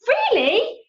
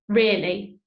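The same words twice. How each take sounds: First: It is said with strong exclamatory emphasis. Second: It is said flatly, as a plain statement.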